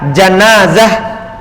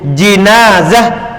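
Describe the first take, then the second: First: The first vowel is an open 'a' sound. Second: The first vowel is a close 'i' sound. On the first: It refers to the dead body. "kalau dibaca fathah jimnya" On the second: It refers to the bier that carries the body. "Kalau di kasroh jimnya"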